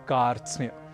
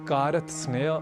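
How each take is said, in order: First: All five consonants join with no vowel between. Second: A vowel breaks the cluster after r and t. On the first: The speaker calls it right. "हमें कहना है कार्त्स्न्य" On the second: The speaker calls it wrong. "इसे कारत सनय, कारत स्नेय आदि न कहकर"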